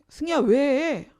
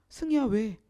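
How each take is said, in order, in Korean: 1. 목소리가 날카롭고 거칠고 짜증스럽게 들려요. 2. 목소리가 부드럽고 다정하고 걱정스럽게 들려요. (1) "아우, 짜증나잖아요" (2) "그럼 제가 되게 걱정돼서 물어보는 거예요"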